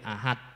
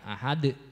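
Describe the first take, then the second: First: The final d stops flat with no bounce. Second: The final d is released with a short bounce. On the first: The speaker calls it wrong. "Tidak boleh ahad" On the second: The speaker calls it right. "harus dipantulkan ahad"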